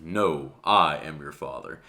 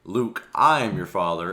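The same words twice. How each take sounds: First: Slow, lower Darth Vader quote, falling; correct Vader line. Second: The popular wrong version, slowed like Vader; misquoted Vader line. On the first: YouTuber giving the real movie line, low Vader imitation. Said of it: "where Vader said". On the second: YouTuber quoting the famous misquote, mock Vader. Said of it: "why people say". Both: Retold or imitated.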